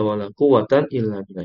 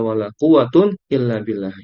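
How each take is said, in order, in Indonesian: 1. Kata quwwat berakhir dengan bunyi -an. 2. Kata quwwat berakhir dengan bunyi -un. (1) "dengan akhiran tanwin fathah" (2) "quwwatun yang kedua dirofakkan marfu dengan akhiran dhamma"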